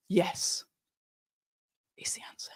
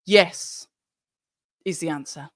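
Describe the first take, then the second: First: Hushed whisper. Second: Said in the usual way. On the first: Shown as a demonstration. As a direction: breathe it out unvoiced. Repeats answer, then whispers it.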